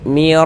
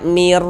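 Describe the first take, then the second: First: The syllable is kept short without holding. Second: The syllable is held long with a hum. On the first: The speaker calls it right. "Pendek baca bacanya itu. Mir rabbil, nah, begitu" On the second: The speaker calls it wrong. "Jangan dibaca mir, dipanjangkan begitu, jangan, salah"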